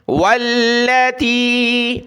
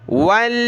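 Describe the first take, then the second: First: "والتی" with short la, long final tee; common mistake. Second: "واللاتی" chanted with a long laa; stretched laa. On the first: Teacher shows the common error, "والتی" with short la. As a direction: cut the la of "والتی" short, stretch only the end. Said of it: "ایک عام غلطی جو ہے". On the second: Teacher shows the correct reading, "واللاتی" with long laa. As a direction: draw out both laa and tee in "واللاتی". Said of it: "اس کو ہم نے کھینچنا ہے". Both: Shown as a demonstration.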